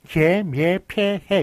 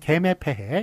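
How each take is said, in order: First: The syllables are said with the full 'ye' vowel. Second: The syllables are said with a simple 'e' vowel. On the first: "이렇게 발음도 맞고요" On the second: "이렇게 단순화된 발음도 어, 허용으로서 맞게끔 하였습니다"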